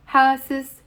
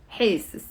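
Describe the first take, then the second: First: Ha, sis with open a; ha vowel. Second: Hey, sis with an e sound; hey vowel. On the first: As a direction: say Ha, sis with a clear a. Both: Shown as a demonstration. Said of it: "pronounced ha, sis or hey, sis".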